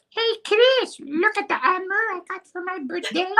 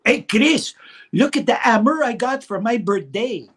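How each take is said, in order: First: Put-on very high, fast squeaky child voice in a thick Jean Chrétien accent; thicker Jean Chrétien accent. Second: High, loud child imitating a thick Jean Chrétien French Canadian accent. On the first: Boy brags to cousin Chris in an exaggerated Jean Chrétien accent. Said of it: "it probably sounded more like". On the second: Boy brags to cousin Chris in a Jean Chrétien accent. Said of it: "a great Jean Chrétien accent".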